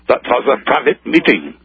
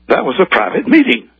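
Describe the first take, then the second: First: It is said with a put-on German accent. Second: It is said indignantly without a German accent. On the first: "Then he remembered to affect his German accent" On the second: "an indignant"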